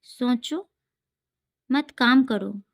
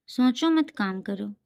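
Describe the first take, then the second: First: सोचो alone with a rise, long break, मत काम करो; pause after सोचो. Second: सोचो मत joined, then काम करो; pause after मत. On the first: Teacher reads second made-up example, pausing after सोचो. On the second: Teacher contrasts the comma placement, grouping सोचो मत together. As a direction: run सोचो straight into मत. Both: Shown as a demonstration. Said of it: "second मैंने बनाया है".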